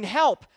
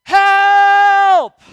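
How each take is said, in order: First: Said in the usual way. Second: High, full-volume cry for help; reenacted yelling. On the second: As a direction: scream it out, long and held. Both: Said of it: "then I start yelling".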